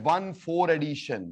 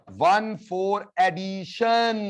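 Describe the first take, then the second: First: Said in the usual way. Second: Very slow, each word of "one four addition" held long; drawn-out drilling. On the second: Shown as a demonstration. Teacher repeating the term after asking the class, drawn-out drilling.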